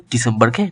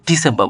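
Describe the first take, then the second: First: Said in the usual way. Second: ডিসেম্বর as "di-sem-ba", r dropped; silent final R. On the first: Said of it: "ডিসেম্বরকে ডিসেম্বর বলবো". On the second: Shown as a demonstration. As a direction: end ডিসেম্বর on "ba", without r. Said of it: "রটা উজ্জ্ব থাকবে". (ডিসেম্বর-কে "ডিসেম্বা" উচ্চারণ)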